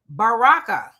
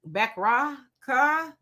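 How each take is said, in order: First: The name begins with a 'Ba' sound. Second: The name begins with a 'Beck' sound. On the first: The speaker calls it right. "let me try to get it right" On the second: The speaker calls it wrong. "I know I said that wrong"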